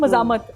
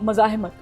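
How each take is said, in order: First: It is said in a Lahori accent, without the h. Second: It is said in standard Urdu, with the h.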